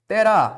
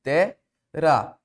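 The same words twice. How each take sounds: First: Said in the usual way. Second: "Terá" split as Te, pause, rá; "Terá" pulled apart with a gap before rá; separated syllables. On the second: Shown as a demonstration. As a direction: say "Terá" one syllable at a time.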